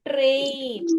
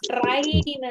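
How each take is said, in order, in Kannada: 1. ಸ್ವರ ಉದ್ದವಾದ 'ay' ಶಬ್ದ ಆಗಿದೆ. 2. ಸ್ವರ ತೆರೆದ 'ah' ಶಬ್ದ ಆಗಿದೆ. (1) "ಇಲ್ಲ ಅಲ್ಲ" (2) "ನಾವು ಏ ಅಂತ ಹೇಳದೆ ಆ ಹೇಳಿದ್ರೆ ಹೇಗಾಗ್ತಿತ್ತು?"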